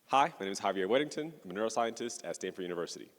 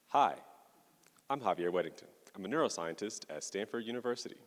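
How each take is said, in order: First: It is spoken at a normal pace. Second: It is spoken more slowly.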